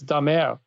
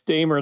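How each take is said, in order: First: The name is said with a French pronunciation. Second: The name is said with a British pronunciation. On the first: "when I'm in Quebec, uh, it's Damer. Doesn't it sound more dashing?" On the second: "it's Damer, the British"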